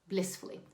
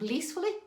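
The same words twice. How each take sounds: First: The first vowel is a short 'i' sound. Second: The first vowel is a long 'ee' sound. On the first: The speaker calls it right. "short I" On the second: The speaker calls it wrong. "not blee"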